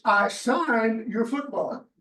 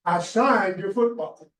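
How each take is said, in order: First: Even slower, leaning hard on "signed"; firmer, final repeat of the refusal; more emphasis. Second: Slow and firm, every word weighed; a curt, final refusal; emphatic. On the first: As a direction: drive the refusal home, word by word. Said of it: "A little more emphasis". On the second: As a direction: shut him down slowly, few words. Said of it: "were very emphatic". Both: Retold or imitated.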